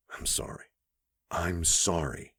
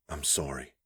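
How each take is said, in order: First: Whisper. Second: Said in the usual way. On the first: A narrator's reading. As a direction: breathe the apology. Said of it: "she whispered". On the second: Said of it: "she'd said".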